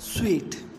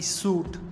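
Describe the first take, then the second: First: The word sounds like 'sweet'. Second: The word sounds like 'suit'. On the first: The speaker calls it right. "which is correctly pronounced as sweet" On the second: The speaker calls it wrong. "mispronounced words which we use in our daily life"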